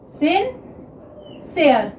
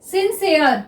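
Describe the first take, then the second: First: sincere stretched out very slowly; dictating sincere slowly to students; slow dictation. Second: Said in the usual way. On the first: Shown as a demonstration. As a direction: draw out sincere syllable by syllable while writing. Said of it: "next देखिए sincere".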